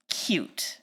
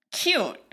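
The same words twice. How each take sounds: First: "cute" whispered lightly, mocking the movie's intent. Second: "cute" voiced, stressed and drawn out in disgust; emphatic not cute. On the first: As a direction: breathe "cute" as if the movie meant it sweetly. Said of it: "intended as, like, cute". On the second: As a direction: lean hard on "cute" to reject it. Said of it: "it comes off so not cute". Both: Shown as a demonstration.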